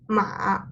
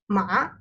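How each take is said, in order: First: The pitch dips low and then rises. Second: The pitch rises from middle to high. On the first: It means house. "falling rising tone" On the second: It means hemp. "to rising tone"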